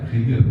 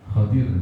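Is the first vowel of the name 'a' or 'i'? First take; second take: i; a. First: The name starts with khi and a clipped second vowel. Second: The name starts with kha and a full second vowel. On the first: "kha-nya di kasrah, khi ... dotnya sukun, Khidir" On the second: "bi fathil kha wa kasrid dad Khadir. Jadi bacanya Khadir"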